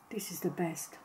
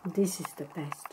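First: Hushed whisper. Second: Talking while chewing; mouth full. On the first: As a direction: breathe it out, whispering. Quiet tasting aside. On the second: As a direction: say it through a bite. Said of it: "I'm sorry, I'm chewing". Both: Real, not acted.

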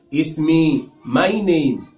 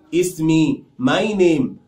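The two takes are said the same way.

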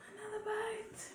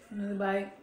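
First: Breathy whispered repeat of Another bite. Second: Said in the usual way. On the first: Pretend.

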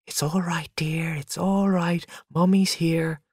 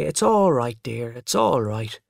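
First: Hushed, whispery comfort, pitched up; gentle near-whisper of reassurance; soothing mother. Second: Voiced, mildly soothing reassurance; gentle consolation, slowing at the end; consoling child. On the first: Mother soothing screaming baby at night. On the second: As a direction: comfort Father as Mother would, without whispering. Child consoles father, copying mother. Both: A narrator's reading.

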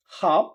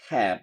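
First: British "hop" with open AH, like HAHF; British accent. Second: Low American "hap" with AE, like HAF; American accent. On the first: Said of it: "ব্রিটিশরা বলতেছে আ". (British উচ্চারণে) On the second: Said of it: "আমেরিকানরা বলতেছে অ্যা". (American উচ্চারণে) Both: Shown as a demonstration.

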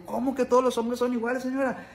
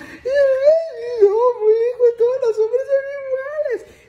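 First: Said in the usual way. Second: Much higher, louder wailing falsetto; exaggerated tearful falsetto lament; mock crying lady. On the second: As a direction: wail it like a heartbroken señora, hammed-up. Lady crying over her boyfriend.

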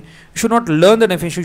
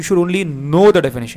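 First: "learn" stretched out and loud; stress on learn. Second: "know" stretched out and loud; stress on know. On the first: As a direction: lean hard and long on "learn". ("learn" पर खींचकर ज़ोर) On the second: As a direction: lean hard and long on "know". ("know" पर खींचकर ज़ोर) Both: Shown as a demonstration. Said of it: "learn करने की जरूरत नहीं है".

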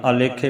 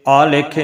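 First: ਆਲੇਖੇ as a-le-khe, brief opening a; short, light a starting ਆਲੇਖੇ; correct short first vowel. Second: ਆਲੇਖੇ with a long opening aa; wrong long first vowel. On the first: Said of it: "ਆਲੇਖੇ ਪਾਠ ਕਰਨਾ". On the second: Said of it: "ਨਹੀਂ ਕਰਨਾ". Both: Shown as a demonstration.

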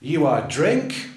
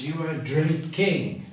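First: "You are drink" said slowly, rising on "drink" like a question; mock error offered to students; wrong form. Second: "you are drinking" said slowly, falling on "drinking"; teacher giving the correct form. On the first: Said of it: "Well, no". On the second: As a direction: settle firmly on "drinking", slowly. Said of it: "Well, no, it's". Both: Shown as a demonstration.

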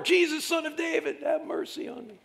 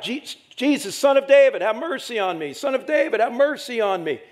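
First: Crying out all the more. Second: High, loud pleading cry to Jesus; a blind beggar cries out to Jesus, pleading loudly; crying out for mercy. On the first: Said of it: "Cried out all the more". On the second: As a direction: call out desperately from the roadside. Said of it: "he starts crying out". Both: Acted.

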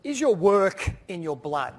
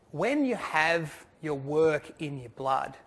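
First: Each word leaned on, slower and louder; slow emphatic question. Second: Very slow, each word weighted; slow emphatic phrase. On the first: Retold or imitated. Speaker quoting Julie to the audience, slow and weighty. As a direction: weigh every word of "your work in your blood". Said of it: "she stood here and she said". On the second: Real, not acted. Speaker driving home his main point to the audience, slow and deliberate. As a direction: draw out "work in your blood" deliberately. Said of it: "repeats Julie's phrase as message".

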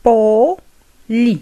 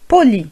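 First: "Poli" split into po, then li; syllable by syllable. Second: Said in the usual way. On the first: Shown as a demonstration. Teacher modelling for learners, syllable by syllable "Poli". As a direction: pause between the two syllables of "Poli".

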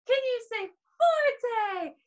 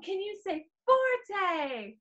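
First: Much higher, slow, excited call; louder call. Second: Said in the usual way. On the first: Shown as a demonstration. Teacher urging kids to say forte loudly. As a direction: push the word forte up high.

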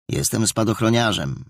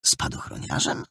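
First: Said in the usual way. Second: Soft, puzzled whispered echo: "Spadochroniarzem?"; boy puzzled by new classmate's word; surprised. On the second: A narrator's reading. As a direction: repeat "Spadochroniarzem?" in quiet disbelief. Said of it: "zdziwił się Maciek".

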